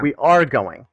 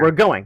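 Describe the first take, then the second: First: The first two words are said separately in full. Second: The first two words are contracted into one. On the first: "the full word" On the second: "the abbreviations"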